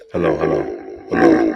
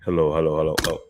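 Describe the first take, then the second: First: Toy echo microphone. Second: Testing a deep voice changer; toy echo microphone. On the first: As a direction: toy mic pitched way down. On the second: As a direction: lower voice through toy mic. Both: Real, not acted. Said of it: "it makes my voice deep".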